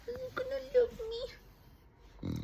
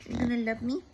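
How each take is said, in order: First: Very high, slow cooing pet voice; slow high cooing at the dog; drawn-out baby talk. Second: High louder doting pet voice; doting baby talk; baby talk to dog. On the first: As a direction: stretch it out sweetly to the dog. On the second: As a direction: coo at the dog for love. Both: Acted. Talking to her dog.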